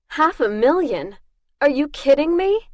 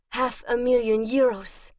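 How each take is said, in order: First: Higher, louder disbelief; indignant disbelief at her own price; incredulous. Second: Said in the usual way. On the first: Acted. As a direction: sound insulted by the sum. Outraged at the low bounty.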